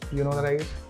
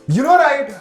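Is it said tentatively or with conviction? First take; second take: tentatively; with conviction. First: It is said tentatively, without conviction. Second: It is said firmly, with conviction.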